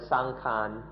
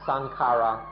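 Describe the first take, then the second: First: The word has two syllables, ending in a nasal. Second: The word has three syllables, ending in a vowel.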